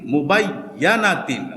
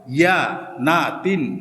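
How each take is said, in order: First: মুবাই ইয়া না তিন run together at normal pace; joined reading. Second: ইয়া না তিন split into slow syllables; reading by syllables. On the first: Teacher showing students the joined reading of মুবাই ইয়া না তিন. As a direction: blend মুবাই ইয়া না তিন into one word. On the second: Teacher showing students the syllables ইয়া না তিন. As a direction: sound out ইয়া না তিন one syllable at a time. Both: Shown as a demonstration. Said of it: "আমরা direct বলে ফেলবো".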